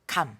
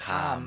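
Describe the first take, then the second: First: The vowel is said short. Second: The vowel is drawn out long. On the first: It means the fruit. "The the vowel sound is a little shorter" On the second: It means a feeling or sense. "a little longer, like extended"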